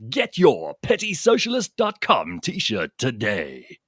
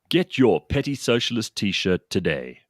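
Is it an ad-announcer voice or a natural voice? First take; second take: ad-announcer; natural. First: It is said in a put-on ad-announcer voice. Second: It is said in his natural voice.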